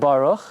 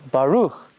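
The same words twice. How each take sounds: First: The stress is on the first syllable. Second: The stress is on the last syllable. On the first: The speaker calls it wrong. "it's not Baruch" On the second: The speaker calls it right. "you emphasize the last syllable"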